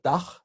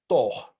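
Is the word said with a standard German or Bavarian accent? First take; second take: standard German; Bavarian. First: It is said in standard German with an A. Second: It is said in Bavarian with an O.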